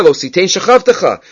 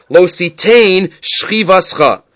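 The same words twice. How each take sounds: First: Said in the usual way. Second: "Shchivascha" slow and measured, shchi-VAS-cha; half-speed "Lo Sitein Shchivascha", each word set apart; alternate reading. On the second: Shown as a demonstration. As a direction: stretch out "Sitein" and "Shchivascha" deliberately. Re-reads the verse word differently.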